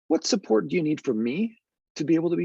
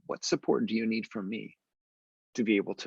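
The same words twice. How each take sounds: First: The voice moves up and down a lot. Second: The voice is flat and goes down. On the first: The question invites an open answer. "an approachable voice that has a lot more up and down modulation" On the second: The question does not invite an open answer. "I used what's known as a credible voice. My voice went down, and they were not very open"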